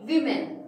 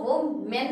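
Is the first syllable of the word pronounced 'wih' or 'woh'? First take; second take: wih; woh. First: The first syllable sounds like 'wih'. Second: The first syllable sounds like 'woh'. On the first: The speaker calls it right. "कैसे पढ़ते हैं, विमेन" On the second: The speaker calls it wrong. "हम इसको वो मेन नहीं पढ़ते हैं"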